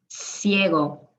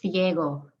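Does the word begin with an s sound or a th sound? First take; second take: s; th. First: The first sound is a hissing s. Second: The first sound is a soft th. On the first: This is how it is said in Latin America. "If it's followed by an I or an E, it's a S" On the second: This is how it is said in Spain. "The C I and the C E in Spain is pronounced like a soft T H"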